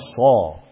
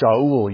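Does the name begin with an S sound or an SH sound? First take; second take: S sound; SH sound. First: The name begins with an S sound. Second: The name begins with an SH sound. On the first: "We call him Saul" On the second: "We don't call him Shaul usually"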